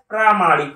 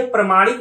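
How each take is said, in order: First: प्रामाणिक with a long first vowel, "praa-maanik"; correct pronunciation. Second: प्रमाणिक with a short first vowel, "pra-maanik"; wrong pronunciation. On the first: Teacher giving students the correct word, long first vowel. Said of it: "होता है". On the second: Teacher rejecting the misspelt word, short first vowel. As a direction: say प्रमाणिक as "pruh-MAA-nik". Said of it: "नहीं होता है". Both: Shown as a demonstration.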